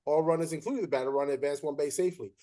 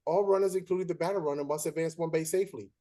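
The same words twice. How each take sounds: First: Fast run through the rulebook line; rattled-off rule. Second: Deliberate rule recital. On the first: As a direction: reel it off like you know it by heart. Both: Retold or imitated.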